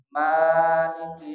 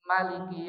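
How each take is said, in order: First: The first vowel is drawn out long. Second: The first vowel is kept short. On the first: This reading is used in the first prayer cycle. "mimnya memakai alif. Artinya dibaca panjang" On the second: This reading is used in the second prayer cycle. "mimnya tidak menggunakan alif"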